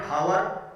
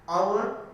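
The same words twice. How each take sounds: First: The word begins with an audible h sound. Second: The word begins with a vowel, no h sound. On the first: The speaker calls it wrong. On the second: The speaker calls it right. "it is silent"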